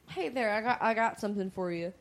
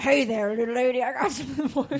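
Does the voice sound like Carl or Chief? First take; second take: Carl; Chief. First: It is said in a Carl voice. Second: It is said in a Chief voice.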